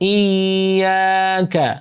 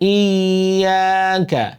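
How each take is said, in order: Both takes have the same delivery.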